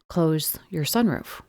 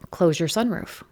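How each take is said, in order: First: It is said a little slower. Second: It is said at normal speed.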